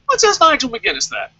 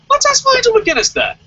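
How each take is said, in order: First: Said in the usual way. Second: "Let's" shot up very high and loud, sneering; mocking challenge. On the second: Real, not acted. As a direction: throw "Let's ask Nigel McGuinness that" out in a high, loud taunt.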